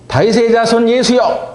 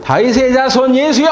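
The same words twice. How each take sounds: First: It is called loudly at a lower pitch. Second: It is shouted louder at a higher pitch.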